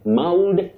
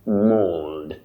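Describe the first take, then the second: First: The vowel is not a long oh sound. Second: The vowel is a long oh sound. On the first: The speaker calls it wrong. "common but wrong" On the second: The speaker calls it right. "represent the long sound O"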